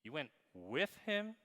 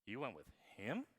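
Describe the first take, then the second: First: "with" set apart and punched; stress on WITH. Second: "him" held back, then lifted in a rising question; quick "You went with", then question "him"; stress on HIM. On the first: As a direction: hit the word "with" after a quick "You went". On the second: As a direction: save all the weight for "him". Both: Shown as a demonstration. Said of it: "same words with different emphasis".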